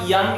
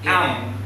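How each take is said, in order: First: It begins with a y sound. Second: It begins with a plain vowel. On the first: The speaker calls it wrong. "It's not yum" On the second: The speaker calls it right. "It's am"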